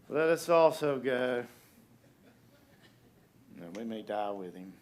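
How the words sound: It is said in a mopey, gloomy tone. The speaker is pessimistic and resigned to death. The speaker calls it right. "I think this is Eeyore"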